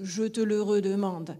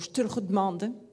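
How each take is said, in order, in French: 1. C'est dit avec un accent toulousain. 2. C'est dit avec un accent parisien. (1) "comme je le dis à Toulouse" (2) "à Paris, on va dire"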